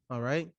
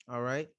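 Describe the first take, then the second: Both takes have the same delivery.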